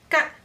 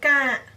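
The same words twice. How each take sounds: First: The vowel is cut short. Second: The vowel is held longer.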